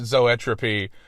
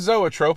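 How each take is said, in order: First: The word ends with an added 'ee' sound. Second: The word ends without an extra vowel. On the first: The speaker calls it wrong. "I pronounced it zoetropy" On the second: The speaker calls it right. "it was supposed to be still like a zoetrope"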